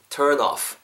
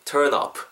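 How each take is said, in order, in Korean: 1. 마지막 단어는 부드러운 F 소리로 끝납니다. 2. 마지막 단어는 터지는 P 소리로 끝납니다. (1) "윗니가 아랫입술에 닿은 상태로 자연스럽게 불어주시면 돼요" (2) "입술이 닿으면은 up 정도로 느껴요"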